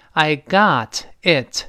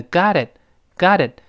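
First: "I got it" slowly, each word apart; separated words. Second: "got it" joined into one word, "goddit"; linked. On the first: Teacher takes it apart for learners, "got it" unlinked. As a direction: sound both t's fully in "got it". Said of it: "连读变成got it". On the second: Teacher shows the linked form, "got it" joined. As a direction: run the t of "got" into "it". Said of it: "连读变成". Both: Shown as a demonstration.

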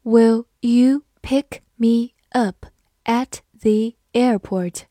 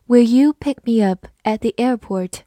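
First: Slow, careful question; slow read-through. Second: Said in the usual way. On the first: Shown as a demonstration. Teacher reading the airport question slowly for students. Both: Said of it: "好，慢读一遍".

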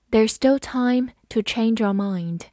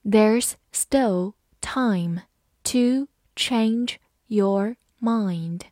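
First: Said in the usual way. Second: Very slow, word by word; teacher reading slowly. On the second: Shown as a demonstration. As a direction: draw the sentence out for learners. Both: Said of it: "好，慢读一遍".

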